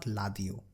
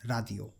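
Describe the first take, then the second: First: Ladio with an L start; wrong pronunciation. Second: Radio with a light tapped R; correct pronunciation. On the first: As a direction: say Ladio, L not R. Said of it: "not Ladio". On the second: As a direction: say Radio with a flapped R. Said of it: "it will be read as Radio". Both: Shown as a demonstration.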